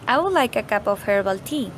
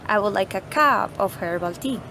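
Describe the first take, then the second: First: No single word gets special stress. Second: The word cup is strongly stressed. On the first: It is just a simple request. "The first one is just a simple request" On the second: The speaker wants a cup, not a mug. "we're saying that we want a cup, not a mug"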